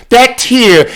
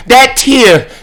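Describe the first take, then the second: No difference in how they are said.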